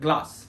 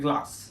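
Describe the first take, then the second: Both takes have the same delivery.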